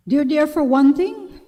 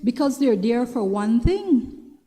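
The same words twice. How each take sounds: First: "one" pushed higher and louder; stress on one. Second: Said in the usual way. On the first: Shown as a demonstration. Warning women viewers, she repeats it with heavy stress on "one". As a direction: hit "one" hard as a warning.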